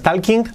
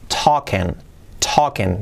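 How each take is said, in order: First: "talking" with a sounded L and final g; mispronounced "talking". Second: "talking" as "token", silent L, no final g; correct "talking". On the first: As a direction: say "talking" wrongly, as spelt: tal-king. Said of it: "Cuidado que no es talking". ("talking" leído a la española) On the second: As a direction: say "talking" low, as taw-kin. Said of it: "La N no se pronuncia". ("talking" sin L ni G final) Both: Shown as a demonstration.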